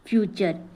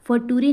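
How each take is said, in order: First: The consonant is a 'ch' sound. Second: The consonant is a plain 't' sound. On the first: The speaker calls it right. "टी का उच्चारण च हो जाता है" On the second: The speaker calls it wrong. "फटूरे नहीं बोलना"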